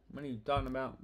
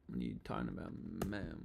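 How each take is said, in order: First: Said in the usual way. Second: Much lower, softer disbelieving growl; deep mock voice. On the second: Real, not acted. Streamer mocking the betting limit in a deep voice. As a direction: drop way down in pitch and grumble.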